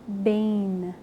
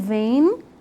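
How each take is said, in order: First: The word begins with a b sound. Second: The word begins with a v sound. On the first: "aquele bet tem dakesh. A palavra é ben" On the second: "aí ele já perde o dagesh e é pronunciado v"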